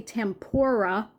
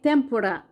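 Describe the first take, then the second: First: The R is a smooth English-style R sound. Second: The R is a very quick tap. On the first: This is how many English speakers say it. "They would say the R like native English speakers normally say an R" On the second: This is how fluent Japanese speakers say it. "It's a very quick R"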